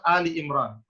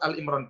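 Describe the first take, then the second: First: The first word is two syllables, Ali. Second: The first word is one syllable, Al. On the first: The speaker calls it right. "yang benar adalah surat Ali Imran" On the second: The speaker calls it wrong. "keliru membaca"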